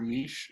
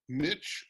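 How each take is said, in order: First: The word is said in a British way. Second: The word is said in a non-British way.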